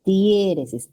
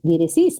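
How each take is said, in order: First: Diéresis slowly stressed on DIÉ, falling; correct stress. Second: Diéresis wrongly stressed on the last syllable, die-re-SÍS, rising; wrong final stress. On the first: Teacher giving students the right reading of diéresis, stress on DIÉ. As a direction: lean on the first syllable, DIÉ-re-sis. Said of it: "ahora sí, muy bien". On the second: Teacher showing students an even worse mistake, diéresis stressed at the end. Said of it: "peor todavía". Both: Shown as a demonstration.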